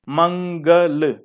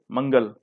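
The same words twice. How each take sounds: First: मंगल very slowly, broken into मं-ग-ल; slow model pronunciation of मंगल; nasal sound demonstration. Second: Said in the usual way. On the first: Shown as a demonstration. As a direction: stretch the nasal in मंगल, syllable by syllable. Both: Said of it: "बोल के देखिए आप लोग".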